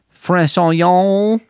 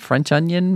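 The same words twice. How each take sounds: First: It is said in a put-on French accent. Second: It is said in the speaker's ordinary accent.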